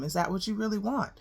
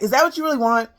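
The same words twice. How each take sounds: First: It sounds gentle and concerned. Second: It sounds accusing and confrontational. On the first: The speaker cares about the listener. The speaker calls it right. "you want to say it in a concerned tone" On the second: The listener is being blamed. The speaker calls it wrong. "you don't want to say it in a way where it's like"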